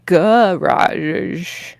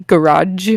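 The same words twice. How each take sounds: First: "garage" drawn out, reduced first vowel, long zh. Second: "garage" ending in a hard dge; questioning "garage" with hard final J. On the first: Retold or imitated. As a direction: stretch "garage" as guh-raazh. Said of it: "no A in the first vowel". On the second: Shown as a demonstration. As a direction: close "garage" on a J sound, as in "judge". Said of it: "putting a D G E".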